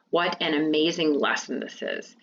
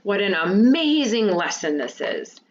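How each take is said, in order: First: Said in the usual way. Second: Exclaimed, with a swell on AMAZING; strong feeling. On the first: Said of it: "It's not a question". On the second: Shown as a demonstration. Teacher showing students an exclamation with strong feeling, exclaimed. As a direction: read it as an exclamation, leaning into AMAZING. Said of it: "can also show strong feeling".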